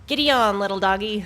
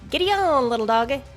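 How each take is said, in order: First: It is said in a plain, unaccented voice. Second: It is said in a southern accent. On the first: The speaker calls it wrong. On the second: The speaker calls it right.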